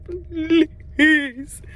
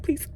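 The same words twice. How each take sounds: First: Higher, whiny pleading "Please"; mock pleading please. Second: Said in the usual way. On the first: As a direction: beg for it with a whine. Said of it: "I said". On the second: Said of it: "I just said".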